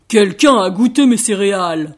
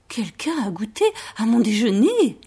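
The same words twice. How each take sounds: First: Loud, booming bear; Papa Bear's big voice. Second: Mama Bear's gentle voice. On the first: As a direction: thunder it out as an indignant papa bear. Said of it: "dit papa ours d'une très grosse voix". (très grosse voix de papa ours, forte) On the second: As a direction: say it gently, without booming. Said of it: "dit maman ours de sa voix douce". (voix douce de maman ours) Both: A narrator's reading.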